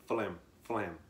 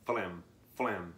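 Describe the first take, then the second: First: Said in the usual way. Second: "flam, flam" stretched long and slow; slow drawn-out flam. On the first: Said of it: "creates a flam, flam sound". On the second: Shown as a demonstration. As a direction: draw out each "flam" to show the sound. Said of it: "creates a".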